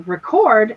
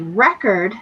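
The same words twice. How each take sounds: First: The stress is on the second syllable. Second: The stress is on the first syllable. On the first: It is used as a verb. "you stress the second syllable, that means it's an adjective or it's a verb" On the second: It is used as a noun. "where you stress the first syllable, it's a noun"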